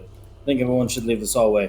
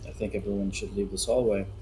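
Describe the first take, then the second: First: It is said at a loud, raised volume. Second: It is said at a normal, quieter volume.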